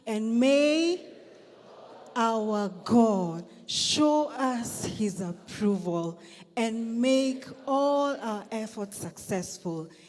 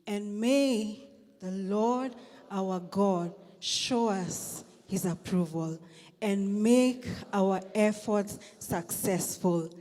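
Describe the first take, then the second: First: It is read with more force and conviction. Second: It is read in a plain, calm way.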